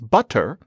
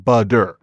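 First: The middle consonant is a crisp t. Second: The middle consonant is a soft d-like flap. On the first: This is the original form. "what starts out as butter" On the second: This is the later, softened form. "will become budder, because the consonant softens"

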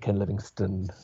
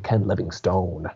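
First: The name is said in an English accent. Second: The name is said in an American accent.

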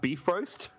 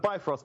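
First: It sounds like the words 'beef roast'. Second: It is said as spelled, not like 'beef roast'. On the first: The speaker calls it right. "it's actually pronounced Bifrost" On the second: The speaker calls it wrong. "I call it the Bifrost Bridge because it's spelled Bifrost"

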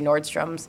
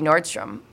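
First: The name ends with an added s sound. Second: The name ends without an s sound. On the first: The speaker calls it wrong. "That's a big one that people say Nordstrom's" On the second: The speaker calls it right. "It's supposed to be Nordstrom"

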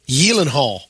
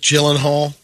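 First: The name is said the Swedish way. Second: The name is said the usual English way.

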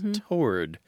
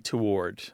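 First: It is one syllable with no W sound. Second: It is two syllables with a W sound. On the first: It is the classic, somewhat elitist form. "classic, maybe even elitist pronunciation is toward, T-O-R-D" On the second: It is the form most people commonly use. "They say it like it's written. They pronounce the W. It's two syllables"

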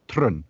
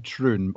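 First: It is said in a Scottish local accent. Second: It is said in a plain, everyday accent.

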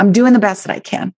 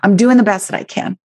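First: It is said in a tense, defensive tone. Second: It is said in a tense, defensive tone.

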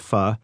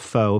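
First: The word is said the native Vietnamese way. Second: The word is said the common anglicized way. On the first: The speaker calls it right. "but it's pronounced pho" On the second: The speaker calls it wrong. "most people pronounce it as pho"

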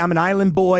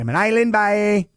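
First: The last word is said with an 'oy' vowel. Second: The last word is said with an 'ay' vowel. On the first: "They don't say" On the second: "They say"

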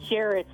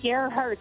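First: The name sounds like Jarretts. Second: The name sounds like Gerhards. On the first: This is how the hometown says the name. "everybody says Jarrett's in my hometown" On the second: This is how the name is properly said. "is the way it sounds of the G-E-R-H-A-R-D-S"

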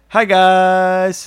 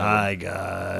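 First: It is said in his normal voice. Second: It is said in a put-on Dark Jedi voice.

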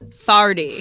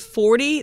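First: It is said in a Saint Louis accent. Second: It is said in a standard accent.

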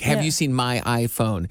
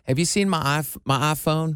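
First: It is said in the speaker's usual local accent. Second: It is said with a Southern vowel in iPhone. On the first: "the way we would say it around here" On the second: "she'll say ... it's that Southern thing"

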